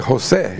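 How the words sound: The name is said with Spanish sounds. "But in Spanish you would say"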